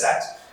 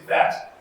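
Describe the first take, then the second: First: The word starts without a th sound. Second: The word starts with a clear th sound. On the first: The speaker calls it wrong. "A lot of students will not pronounce the T H sound" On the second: The speaker calls it right. "instead of saying, saying that"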